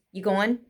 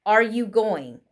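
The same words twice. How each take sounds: First: "You going" as you go-un, rising; casual dropped form. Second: "Are" clearly sounded, then "you going" with ng; full question form. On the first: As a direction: drop the are, end "going" on n, no g. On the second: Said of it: "Notice how we drop the question word". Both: Shown as a demonstration.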